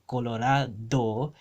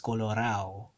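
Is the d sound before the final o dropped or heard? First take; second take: heard; dropped. First: The d before the final vowel is clearly pronounced. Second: The d before the final vowel is left out.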